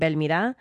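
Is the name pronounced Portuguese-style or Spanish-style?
Spanish-style. The name is pronounced with Spanish sounds. The speaker calls it wrong. "I think we were saying Belmira"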